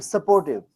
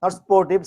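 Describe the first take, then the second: First: Supportive with a clear sə- before por, sə-por-tiv; correct supportive. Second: Sportive said with no first vowel, spor-tiv; the mistaken sportive, clipped to two syllables; wrong sportive. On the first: Teacher models the right supportive, sə-por-tiv. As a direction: sound the sup in supportive. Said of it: "बोलो supportive". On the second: Teacher demonstrates the wrong sportive, two syllables. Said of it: "पहले ठीक करो". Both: Shown as a demonstration.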